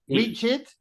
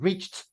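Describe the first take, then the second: First: The ending is an extra 'id' syllable. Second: The ending is a short 't' sound. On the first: The speaker calls it wrong. "An I D?" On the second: The speaker calls it right. "I think it's a T sound"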